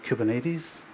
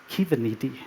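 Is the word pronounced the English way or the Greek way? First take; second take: English; Greek. First: It is said with the English pronunciation. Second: It is said with the Greek pronunciation. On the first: The speaker calls it wrong. "stealing them and mispronouncing them really badly" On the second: The speaker calls it right. "it's pronounced Kiveniti in Greek"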